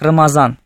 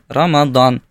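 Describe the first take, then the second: First: The middle consonant is a z sound. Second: The middle consonant is a hard d sound. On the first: This is the Persian pronunciation. "Вот эту букву они произносят как букву З" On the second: This is the Arabic pronunciation. "В арабском языке произносится как Рамадан. Прям с таким твердым"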